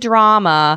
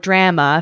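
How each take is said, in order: First: Drama is said with a non-Canadian pronunciation. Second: Drama is said with a Canadian pronunciation.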